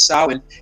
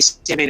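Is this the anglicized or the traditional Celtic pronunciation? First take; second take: traditional Celtic; anglicized. First: The word is said the traditional Celtic way. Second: The word is said the everyday English way. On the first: This is the proper original pronunciation. The speaker calls it right. "it's Samhain" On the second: This is how people here usually say it. The speaker calls it wrong. "We say Samhain"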